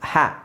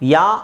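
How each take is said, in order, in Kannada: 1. ಇದು ಸ್ಪಷ್ಟವಾದ h ಧ್ವನಿಯಿಂದ ಆರಂಭವಾಗುತ್ತದೆ. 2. ಇದು y ಧ್ವನಿಯಿಂದ ಆರಂಭವಾಗುತ್ತದೆ, h ಇಲ್ಲ. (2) "ಯಾ ಅಲ್ಲ"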